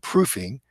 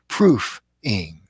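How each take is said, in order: First: The word is said smoothly as one unit. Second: The word is said slowly, syllable by syllable. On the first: "instead of saying proofing" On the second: "a trained proofreader would say out loud"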